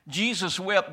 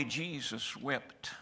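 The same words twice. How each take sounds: First: Higher and louder, ringing out; loud proclaiming. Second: Slow, soft and solemn; hushed and slow. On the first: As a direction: proclaim it to the whole church. Repeats verse at full force. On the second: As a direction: let the two words sink in quietly. Quiet verse after grief talk. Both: Acted.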